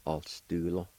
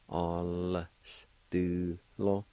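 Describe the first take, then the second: First: Said in the usual way. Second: "All s do lo" drawn out slowly, syllable by syllable; slow demo. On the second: Shown as a demonstration. Teacher slowly modelling "All s do lo" for learners. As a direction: stretch each part of "All s do lo". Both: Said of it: "like this".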